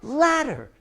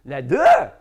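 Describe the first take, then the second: First: "Ladder" said as LAD-der, first syllable high; stress on first syllable. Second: "Ladder" wrongly said la-DER, loud on the end; stress on last syllable. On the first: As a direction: punch the LAD of "Ladder", falling after it. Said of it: "he put the stress here". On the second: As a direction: swallow the start of "Ladder" and punch DER hard. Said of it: "when you put that stress". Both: Shown as a demonstration.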